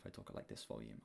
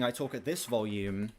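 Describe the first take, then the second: First: The voice is soft and quiet. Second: The voice is loud and projected. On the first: This is how the speaker talks in real life. "whereas in real life, I talk at like this volume. I talk really quietly" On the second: This is how the speaker talks when streaming. "When I'm streaming, I talk at this volume"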